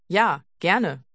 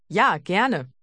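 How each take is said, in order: The two takes are said the same way.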